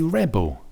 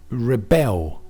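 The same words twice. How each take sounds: First: Rebel as a noun, REB-ul; stress on first syllable. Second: Rebel as a verb, reh-BEL; stress on second syllable. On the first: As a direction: punch the first syllable of rebel high, then drop. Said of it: "But for the noun". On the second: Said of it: "So the verb is". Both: Shown as a demonstration.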